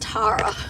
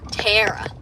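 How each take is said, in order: First: It is said in an Australian accent. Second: It is said in an American accent. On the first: "in Australia it's Tara" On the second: "And you go tear"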